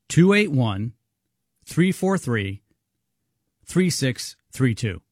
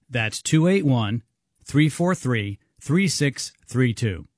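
First: The number is read more slowly. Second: The number is read at normal speed.

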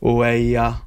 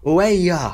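First: It is said sarcastically, in disbelief. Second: It is said impatiently, urging someone to hurry.

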